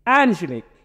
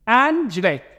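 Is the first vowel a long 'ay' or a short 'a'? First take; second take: short a; short a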